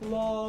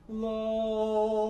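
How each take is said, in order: First: It is said with a normal, brighter resonance. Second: It is said with a very dark resonance.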